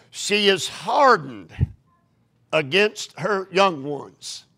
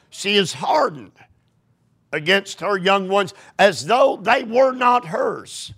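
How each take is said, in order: First: Slow, careful first reading; slow scripture reading. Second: Rising to a shout, higher; emphatic rereading. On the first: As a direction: read it slowly, testing. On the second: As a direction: reread it with growing force. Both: Shown as a demonstration. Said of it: "Am I reading this correctly?".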